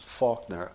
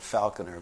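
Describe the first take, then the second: First: Put-on "Faulkner" as FAWK-nuh, accented vowel; imitated Boston pronunciation. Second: "Falconer" in three syllables, FAL-con-er; speaker's own pronunciation. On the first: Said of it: "which he pronounces Faulkner". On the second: Shown as a demonstration. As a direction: say "Falconer" with a short A. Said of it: "I called it Falconer".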